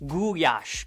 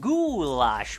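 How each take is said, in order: First: It is said with Hungarian sounds. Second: It is said with English sounds.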